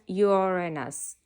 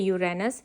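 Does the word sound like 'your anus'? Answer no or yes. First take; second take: yes; no. First: It is said sounding like 'your anus'. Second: It is said without sounding like 'your anus'. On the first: "it sounds like your anus" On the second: "She doesn't say Uranus"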